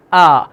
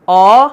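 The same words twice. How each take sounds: First: Light, unrounded آ; fine long آ; second, thin alif. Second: Rounded, heavy آ; dark long آ; first, thick alif. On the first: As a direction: say آ thin and open. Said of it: "اور بعد والے الف کی". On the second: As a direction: say آ with the mouth full. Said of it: "پہلے والے الف کی آواز". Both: Shown as a demonstration.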